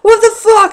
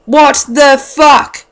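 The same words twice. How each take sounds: First: High, loud shocked outburst; a stoned guy reels at the sight of an elf; startled shout. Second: Drawn-out disbelief. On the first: Retold or imitated. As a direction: yelp it in disbelief. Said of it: "I'm like". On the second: Real, not acted. Punchline reacting to knife.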